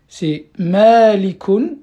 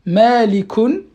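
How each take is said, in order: First: "malikun" stretched slowly and louder, the final un rising; slow model word. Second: "Malikun" said again, louder and rising; repeated model word. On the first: Teacher correcting a student, modelling the word slowly and clearly. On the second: Teacher to student, repeating the model word firmly. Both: Shown as a demonstration.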